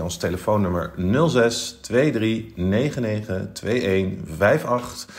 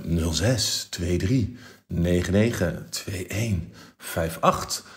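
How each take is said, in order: First: Said in the usual way. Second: Slow, sultry phone voice; sexy phone voice. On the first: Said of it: "Ik herhaal met mijn meest sexy telefoonstem". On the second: Shown as a demonstration. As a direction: purr the number out slowly. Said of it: "met mijn meest sexy telefoonstem".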